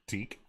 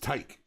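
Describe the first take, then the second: First: The vowel sounds like 'ee'. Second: The vowel sounds like 'eye'. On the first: The speaker calls it right. "I am endeavoring to be better" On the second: The speaker calls it wrong. "I always said it as Tyke, I mispronounced it"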